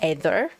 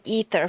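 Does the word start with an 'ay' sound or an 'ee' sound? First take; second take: ay sound; ee sound. First: The word begins with an 'ay' vowel sound. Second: The word begins with an 'ee' vowel sound. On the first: "I like it with more like an A sound" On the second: "that's how Lumen says it"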